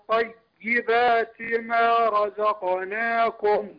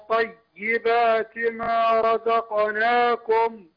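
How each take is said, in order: No difference in how they are said.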